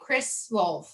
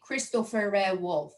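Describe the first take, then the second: First: A short pause separates the first and last name. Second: A vowel sound links the first and last name. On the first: This is how names are said in English. "we say the first name and then you pause and then you say your last name" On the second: This is how names are said in Farsi. "you actually put a vowel sound in the bit in between"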